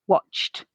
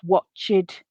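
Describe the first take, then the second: First: The ending adds no syllable; it is one syllable. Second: The ending adds a vowel; it is two syllables. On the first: The speaker calls it right. "the base form has the same number of syllables as the past tense ed form" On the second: The speaker calls it wrong. "this both adds a syllable and a vowel sound"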